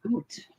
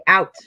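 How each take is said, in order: First: Oot said with a round oo vowel like boot; Canadian oot. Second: Said in the usual way. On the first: Shown as a demonstration. Canadian friend showing how they say oot. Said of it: "when they say out". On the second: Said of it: "they say out".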